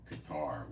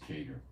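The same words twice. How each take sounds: First: Said in the usual way. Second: "Qatar" said the other way some people say it; alternative pronunciation. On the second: Shown as a demonstration. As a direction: give the variant pronunciation of "Qatar". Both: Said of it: "which some people pronounce Qatar".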